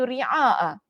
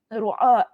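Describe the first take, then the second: First: The first vowel is an i sound. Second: The first vowel is a u sound. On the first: "dengan mengkasrahkan huruf ra" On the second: "Dengan mendammahkan huruf ra"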